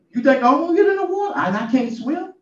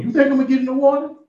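First: Even higher, fast, louder disbelief; more incredulous. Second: High, fast disbelieving question; can't believe what he's hearing; incredulous. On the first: Preacher as the boy, pressing in disbelief. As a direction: push the disbelief further. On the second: Preacher as the boy, asking in disbelief. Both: Retold or imitated.

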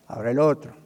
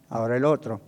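Both takes have the same delivery.

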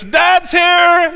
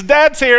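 First: Loud, high, cheery announcement; cartoon dad's entrance. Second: Loud, high, cheery call; cartoon dad's entrance again. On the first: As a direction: burst in like a proud dad calling out. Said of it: "and he says". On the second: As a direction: announce yourself with a grin. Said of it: "He says".

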